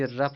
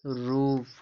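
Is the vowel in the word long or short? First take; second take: short; long. First: The vowel is short, like 'ruff'. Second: The vowel is long, like 'roof'. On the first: The speaker calls it wrong. "जबकि रफ नहीं है" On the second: The speaker calls it right. "रूफ है"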